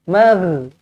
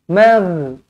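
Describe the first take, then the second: The two takes are said the same way.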